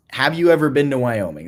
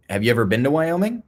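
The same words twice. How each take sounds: First: "you" stressed, then falling to "Wyoming"; pointed question, falling on "Wyoming"; falling challenge question. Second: "Wyoming" lifting upward as a question; rising question. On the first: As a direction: hit "you" and let "Wyoming" drop. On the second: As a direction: ask it with the pitch rising through "Wyoming". Asks the same question twice. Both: Real, not acted.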